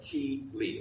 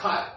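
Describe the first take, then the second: First: The name is said as two syllables. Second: The name is said as one syllable. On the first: The speaker calls it right. "but Key Lee" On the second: The speaker calls it wrong. "Not Kyle"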